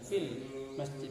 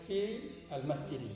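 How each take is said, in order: First: The words are run together, dropping the alif. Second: The words are said separately, with the alif sounded. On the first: "disambung langsung" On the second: "Kalau diputus"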